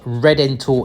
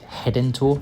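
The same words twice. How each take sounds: First: It begins with an English R sound. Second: It begins with an H sound. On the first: "Redentor in English" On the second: "an R at the start of a word is always pronounced as an English H, so they pronounce it"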